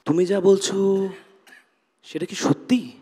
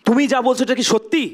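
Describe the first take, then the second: First: It is said in a confused tone. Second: It is said in an angry tone.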